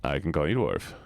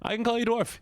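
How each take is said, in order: First: Low, drowsy insistence; sleepy voice. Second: High-pitched, energetic insistence; not sleepy. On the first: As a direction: drop the pitch right down as if half asleep. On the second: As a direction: pitch it way up, wide awake. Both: Shown as a demonstration. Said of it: "I know you love sleepy voice".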